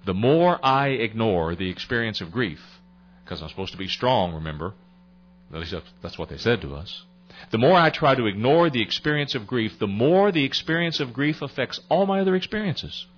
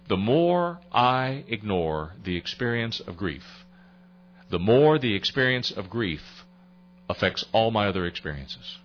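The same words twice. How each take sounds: First: Climbing to a forceful restatement; building emphasis. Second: Slow, weighing each phrase; measured first statement; slow and deliberate. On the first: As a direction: press it home on MORE. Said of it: "just so it sinks in a little bit". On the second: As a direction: let it sink in slowly. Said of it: "let me give that to you again". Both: Shown as a demonstration.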